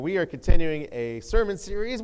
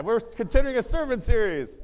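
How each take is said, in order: First: Loud, upbeat series announcement; first, lesser announcement. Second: High, loud rallying shout; hyped-up retry. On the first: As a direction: announce it brightly, short of a shout. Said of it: "that wasn't quite up to par". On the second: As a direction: shout it to fire up the congregation. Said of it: "We'll try it again". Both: Shown as a demonstration.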